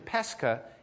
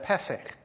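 First: It is said in the later Aramaic form. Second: It is said in the older Hebrew form. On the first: This is the name used in the time of Christ. "Now we're going to change it to Pesach" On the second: This is the older Hebrew name. "Pesach was Hebrew"

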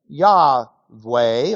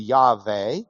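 First: The middle consonant is a w sound. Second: The middle consonant is a v sound. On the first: "We say Yahweh" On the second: "it's actually a German W, so it'd be Yahweh"

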